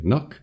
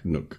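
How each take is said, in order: First: "Nook?" pitched high and rising; questioning echo. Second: Said in the usual way. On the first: Real, not acted. Podcaster doubts own word for tree hollow, questioning "Nook?".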